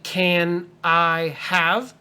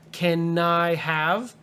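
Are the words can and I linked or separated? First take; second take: separated; linked. First: Can and I are said as separate words. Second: The n of can runs into I. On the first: The speaker calls it wrong. "So don't say can I have" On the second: The speaker calls it right. "The N I goes together"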